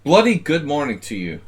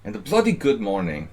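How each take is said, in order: First: Loud, higher hammed-up British greeting; bad British accent, shouted; mock British accent. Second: Put-on amateur British accent, more restrained; mock British accent. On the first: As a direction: belt it out like a cheery Brit, badly. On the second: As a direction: try the British accent again, less loud. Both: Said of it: "my British accent needs a lot of work".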